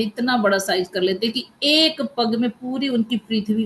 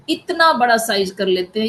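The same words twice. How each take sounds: First: Said in the usual way. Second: इतना बड़ा said louder, stretched for awe; emphatic telling. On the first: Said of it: "repeated line". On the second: Shown as a demonstration. Storyteller describing Vamana growing huge, louder in awe. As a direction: lean on इतना बड़ा to show the giant size. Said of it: "repeated with build-up".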